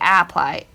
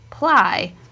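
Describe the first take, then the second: First: The first vowel is a full, clear vowel. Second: The first vowel is a weak schwa sound. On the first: The speaker calls it wrong. "we don't say apply" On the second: The speaker calls it right. "So that's the schwa. Uh, apply"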